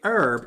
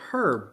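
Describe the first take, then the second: First: The h at the start is silent. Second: The h at the start is pronounced.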